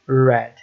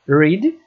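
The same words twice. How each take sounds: First: The vowel is short, rhyming with 'bed'. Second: The vowel is long, rhyming with 'seed'. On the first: The action happened in the past. "no passado, read" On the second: The action happens in the present. "No presente vai ser read"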